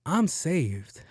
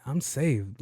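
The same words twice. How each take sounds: First: Relieved. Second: Said in the usual way. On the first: Retold or imitated. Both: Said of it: "I'm like".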